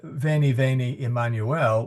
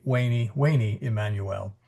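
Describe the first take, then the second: First: "Veni, veni" with a true V sound; ecclesiastical Latin V. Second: "Veni, veni" said as way-nee, W for V; classical Latin W. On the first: Teacher showing church Latin, "Veni" with V. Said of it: "instead of". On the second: Teacher showing classical Latin, "Veni" with W. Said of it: "would be". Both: Shown as a demonstration.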